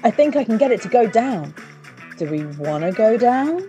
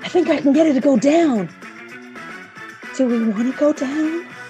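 First: It is read in a plain, ordinary voice. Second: It is read in a put-on character voice.

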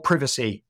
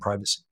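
First: The word has an English pronunciation. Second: The word has an American pronunciation.

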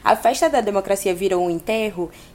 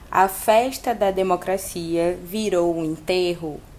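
First: It is said with question intonation. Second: It is said flat, like a statement.

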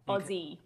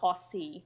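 First: The middle consonant is a Z sound. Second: The middle consonant is an S sound. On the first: The speaker calls it right. "It's Aussie with a Z sound" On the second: The speaker calls it wrong. "Not Aussie"

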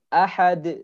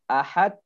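First: The final d is released with a quick bounce. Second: The final d is held without release. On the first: The speaker calls it right. "Seharusnya ahad langsung mantul" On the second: The speaker calls it wrong. "Ahad ditahan. Tidak boleh"

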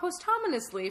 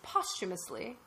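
First: The word is said with an extra N sound. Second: The word is said without an N sound. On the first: The speaker calls it wrong. "It's not posthumously for sure" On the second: The speaker calls it right. "I think it's posthumously"

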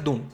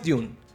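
First: It is said with an American accent. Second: It is said with a British accent.

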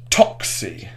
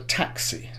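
First: The first vowel is an O sound. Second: The first vowel is a plain A sound. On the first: The speaker calls it wrong. "he heard they pronounced their A's as O's" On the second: The speaker calls it right. "this is how the line should sound"

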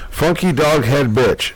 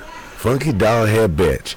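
First: It is read in the speaker's normal voice. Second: It is said in an imitated, put-on voice.

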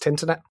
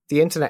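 First: The word 'the' shrinks to a t sound. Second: The word 'the' is said in full. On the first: "in Yorkshire, you don't say the all that much. You say t" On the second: "instead of the internet"

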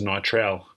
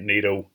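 First: The R in the name is pronounced. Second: The R in the name is silent. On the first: The speaker calls it wrong. "I always thought it was Niterl" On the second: The speaker calls it right. "I only just learned how to say that properly. There's a silent R in there"

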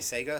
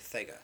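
First: The word begins with an 's' sound. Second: The word begins with a 'th' sound. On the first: "Some people say Sega" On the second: "some people say Thega"

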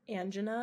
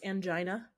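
First: The word is said not rhyming with vagina. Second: The word is said to rhyme with vagina. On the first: This is the proper pronunciation. The speaker calls it right. "But it's angina, I think" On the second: This is the popular pronunciation. The speaker calls it wrong. "The word everybody likes to pronounce angina"

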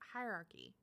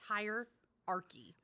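First: The word is said smoothly as one word. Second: The word is broken into two separate parts. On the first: The speaker calls it right. "It's hierarchy" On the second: The speaker calls it wrong. "you made it two words"

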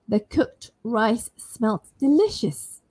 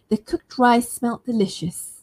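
First: Each word is said slowly and separately. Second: The words flow quickly into one another.

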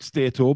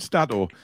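First: The first syllable does not sound like 'stat'. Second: The first syllable sounds like 'stat'. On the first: The speaker calls it wrong. "not Stato" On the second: The speaker calls it right. "it's stat with an O"

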